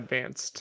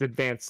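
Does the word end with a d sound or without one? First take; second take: with; without. First: The word ends with a final d sound. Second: The word ends without a final d sound. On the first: The speaker calls it wrong. "not advanced, as you wrote in the notes" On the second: The speaker calls it right. "It's advanced, because it's the Game Boy Advance"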